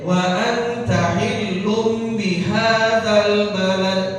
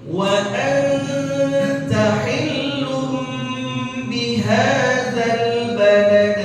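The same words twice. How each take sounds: First: The nasal sounds are cut short, not held. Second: The nasal sounds are held for two beats. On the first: The speaker calls it wrong. "itu salah. Karena gunahnya nggak kebaca" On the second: The speaker calls it right. "ada dua gunnah, ada dua bacaan yang ditahan"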